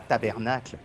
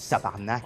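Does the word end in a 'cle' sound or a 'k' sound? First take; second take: cle ending; k ending. First: It is said in full, ending in 'cle'. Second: It is said as 'tabarnak', ending in 'k'. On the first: This is the form people from France use. The speaker calls it wrong. "tu dis pas tabernacle" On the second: This is the form locals actually use. The speaker calls it right. "tu dis tabarnak"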